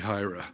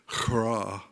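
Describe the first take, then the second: First: The name begins with a soft plain h. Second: The name begins with a harsh guttural h. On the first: This is the easier English pronunciation. "It's a lot easier in English" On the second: This is the original Hebrew pronunciation. "the H sound in the Hebrew would be a guttural sound"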